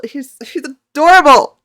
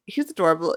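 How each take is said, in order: First: High, loud, drawn-out fan squeal; overwhelmed with adoration, pitch soaring; gushing. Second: Said in the usual way. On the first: Real, not acted. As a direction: gush it slowly and loudly. Gushes over the idol, repeating.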